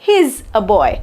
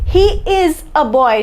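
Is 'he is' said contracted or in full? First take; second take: contracted; full. First: The two words are joined into one short form. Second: Both words are said fully and separately.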